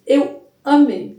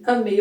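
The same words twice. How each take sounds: First: "amei" alongado e devagar, mais forte; ênfase arrastada. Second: Said in the usual way. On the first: Real, not acted. ("amei" esticado com gosto)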